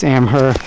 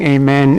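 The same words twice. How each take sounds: First: "Amher" ending in HER, not MEN; corrected pronunciation. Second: "Amher" misread as "Amen"; "Amen", with MEN in place of HER; reviewers' mispronunciation. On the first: Shown as a demonstration. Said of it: "it's not, it's Amher". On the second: Retold or imitated. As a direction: say "Amen", imitating the reviewers' mistake. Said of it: "I've heard some of the reviewers saying".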